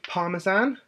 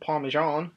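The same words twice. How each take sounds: First: It is said in the speaker's own British way. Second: It is said the way American listeners say it.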